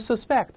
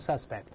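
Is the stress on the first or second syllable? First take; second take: second; first. First: The stress is on the second syllable. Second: The stress is on the first syllable. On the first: It is used as a verb. "动词读成suspect" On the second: It is used as a noun. "名词读成suspect"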